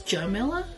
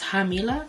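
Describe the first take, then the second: First: The name is pronounced the English way. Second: The name is pronounced the Spanish way. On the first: "But if you're English speaking only" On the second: "If you're Spanish speaking"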